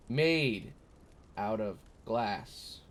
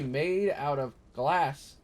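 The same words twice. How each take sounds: First: MADE drawn out slowly, then a pause before OUT OF GLASS; MADE in quotes. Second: Made out of glass, higher, with MADE and GLASS punched; stressed reading. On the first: Reading the riddle's second option, MADE slow and set apart. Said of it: "made is in quotes". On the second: Reading a viewer's riddle aloud, lifted stress on MADE and GLASS. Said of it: "in quotes". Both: Shown as a demonstration.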